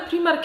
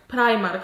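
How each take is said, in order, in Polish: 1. Nazwa brzmi po polsku. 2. Nazwa brzmi po angielsku.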